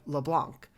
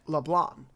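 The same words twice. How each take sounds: First: The final C sound is pronounced. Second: The final C sound is silent.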